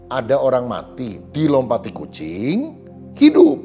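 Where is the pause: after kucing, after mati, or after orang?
after kucing. A pause falls after the word kucing. A dead person came back to life after a cat jumped over them. "ini mujizat namanya"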